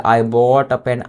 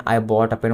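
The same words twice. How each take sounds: First: Very slow, each word spaced out; slow drill. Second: Said in the usual way. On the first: Shown as a demonstration. Teacher to Hindi students, modelling the sentence very slowly. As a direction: spell it out slowly for the class.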